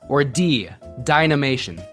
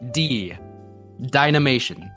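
First: It is said at a normal pace. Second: It is said slowly, in a lower voice.

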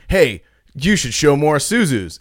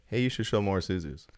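First: It is said with expressive, varied pitch. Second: It is said in a flat monotone. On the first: The comment sounds pushy or demanding. The speaker calls it wrong. "not like" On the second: The comment sounds neutral and harmless. The speaker calls it right. "real monotone"

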